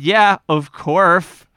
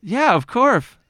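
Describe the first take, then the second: First: "of course" drawn out slowly as "of corf"; stubborn slow "of corf". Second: "of course" said as "of corf"; yeah, of corf, with a bent vowel; odd "of course". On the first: Shown as a demonstration. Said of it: "you just doubled down on it". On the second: Real, not acted. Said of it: "You said a weird sound right now".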